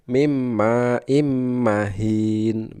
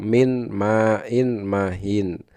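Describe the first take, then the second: First: The n sounds merge into the following m. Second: The n sounds are pronounced before each m. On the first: This is how it is recited. "itu dibacanya mesti" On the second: This is how it is written. "contoh lain seperti di dalam kata"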